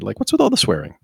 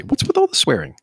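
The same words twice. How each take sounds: First: Said in the usual way. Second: Much higher, incredulous; a high, disbelieving question; high exasperated question. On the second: Real, not acted. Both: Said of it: "but I gotta say".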